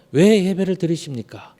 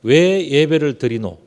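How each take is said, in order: First: Said in the usual way. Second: Slow, lightly Gyeongsang dialect question. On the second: Shown as a demonstration. Preacher to congregation, slow light Gyeongsang dialect. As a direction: ask it slowly the Gyeongsang way. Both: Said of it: "경상도 말로 표현드린다면".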